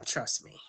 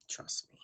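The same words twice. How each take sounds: First: Said in the usual way. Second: Breathy whisper, much softer. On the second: Shown as a demonstration. Host repeats her reassurance to viewers as a whisper. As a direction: drop it to a hush for the repeat.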